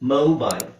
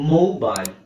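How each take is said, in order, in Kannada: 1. ಇದು ಅಮೆರಿಕನ್ ಉಚ್ಚಾರಣೆ. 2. ಇದು ಅಮೆರಿಕನ್ ಉಚ್ಚಾರಣೆ.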